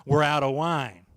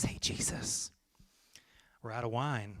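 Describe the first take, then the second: First: Louder, leaning hard on the words as a heavy hint; pointed hint. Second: Hushed whisper, much softer; discreet whisper. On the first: Groomsman dropping a heavy hint to Jesus, pointed. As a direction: say it like a nudge he can't miss. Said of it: "you know, wink, wink". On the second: Groomsman quietly telling Jesus the wine ran out, whispered. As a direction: lean in and whisper it so nobody hears. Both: Acted.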